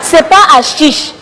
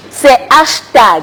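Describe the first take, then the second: First: Said in the usual way. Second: Slow, firm "hashtag" with weight on the word; stress on hashtag. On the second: Shown as a demonstration. Insisting to the general it's "hashtag", slow and firm. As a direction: hammer home "hashtag" slowly.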